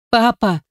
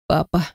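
First: Папа called high after him, choking on tears; crying out through tears. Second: Soft, small plea of Папа; whimpering. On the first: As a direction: call after the father as he walks out. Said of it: "выкрикнула я ему вслед, давясь слезами". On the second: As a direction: whimper the word Папа under your breath. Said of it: "проскулила я". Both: A narrator's reading.

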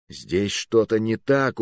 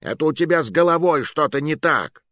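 First: Slow, stubborn insistence; stubborn repetition. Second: High, stress on головой; sarcastic comeback; mocking retort. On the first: A narrator's reading. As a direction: dig in. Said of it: "упрямился я". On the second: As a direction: throw it back at him.

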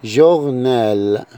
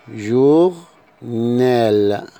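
First: جورنال the French way, zh opening and a rolled back r; French journal. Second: جورنال drawn out slowly, zh opening and a rolled back r; slow French journal. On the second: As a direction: stretch جورنال syllable by syllable. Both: Shown as a demonstration. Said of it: "جي زي كلمة".

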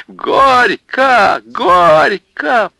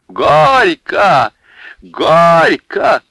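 First: Very high, loud chant; shrill chanting shout. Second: Louder, higher chant; chanting shout. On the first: Women chanting at Илья and Марья, shrill. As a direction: scream the chant. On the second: Women chanting at Илья and Марья, loud. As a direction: chant it like at a wedding. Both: Acted.

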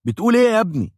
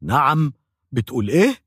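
First: High, loud angry shout with a hard fall on إيه; dentist yelling. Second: Mild mock shout. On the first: Retold or imitated. Dentist shouts at the mumbling patient, loud and high. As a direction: yell it in disbelief, hitting إيه. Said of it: "فصرخ". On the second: Patient reacts to the dentist, in a mild mock shout. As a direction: cry out in disbelief at إيه. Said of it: "فصرخت".

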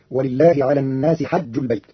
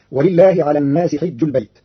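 First: "حج" as hajj with an open a; حج بفتح الحاء. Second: Said in the usual way. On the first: Shown as a demonstration. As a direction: open the ha of "حج" wide. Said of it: "بفتح الحاء فتصير". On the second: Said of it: "قرأ قالون كلمة".

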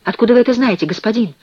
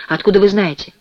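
First: Higher, louder agitated question. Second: Mildly surprised question. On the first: Prisoner presses a stranger in the dark, agitated. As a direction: press the stranger anxiously for an answer. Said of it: "спросил взволнованный голос в темноте". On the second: Cellmate asks how the stranger knows, mildly surprised. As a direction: ask with a touch of astonishment. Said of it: "удивлённо откликнулся тот". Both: A narrator's reading.

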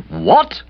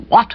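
First: High, rising shocked question; aunt's astonished cry. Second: Narrator's startled exclamation; astonished cry. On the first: Aunt hears of the engagement, astonished cry. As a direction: echo the shock in a raised aunt's voice. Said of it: "cried Aunt Dahlia". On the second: Man hears of his friend's engagement, astonished cry. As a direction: cry out in mild shock. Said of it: "I cried". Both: A narrator's reading.

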